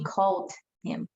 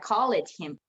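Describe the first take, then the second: First: 'Called' is said as one syllable ending in d. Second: 'Called' is said with an extra second syllable. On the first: The speaker calls it right. "You pronounce the word as it is and then make the t sound" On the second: The speaker calls it wrong. "you don't make that last syllable, a, um, that last and as a syllable"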